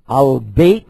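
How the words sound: The word begins with an 'al' sound. This is the form used in the Gulf. "They use A-L"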